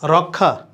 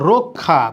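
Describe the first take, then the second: First: The first vowel sounds like an open 'a'. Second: The first vowel sounds like an 'o'. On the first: The speaker calls it wrong. "তাহলে ভুল বলি" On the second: The speaker calls it right. "এটা হবে রক্ষা"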